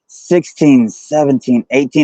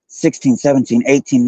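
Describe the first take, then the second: First: The numbers are counted very slowly. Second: The numbers are counted at a normal pace. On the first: "she did it real slow" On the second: "It sounded like"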